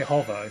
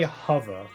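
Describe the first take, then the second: First: The first vowel sounds like the 'o' in hot. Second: The first vowel sounds like the 'u' in hut. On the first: This is how British speakers say it. The speaker calls it right. "we pronounce the O" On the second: This is how some Americans say it. The speaker calls it wrong. "they say hover, like with a U"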